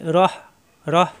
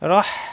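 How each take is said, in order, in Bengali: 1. শেষের h একটি নরম, শ্বাসযুক্ত ধ্বনি। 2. শেষের h গলার গভীর থেকে আসে। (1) "আমরা যদি রহ রহ পড়ি তাহলে কিন্তু গোল হা হয়ে যাবে" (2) "কণ্ঠনালীতে সব দিয়ে"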